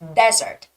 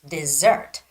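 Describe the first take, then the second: First: The stress is on the first syllable. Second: The stress is on the second syllable. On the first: It means a dry sandy place. "the stress goes on the first E" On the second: It means a sweet food. "the stress goes on the second E"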